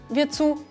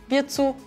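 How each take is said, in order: Both takes have the same delivery.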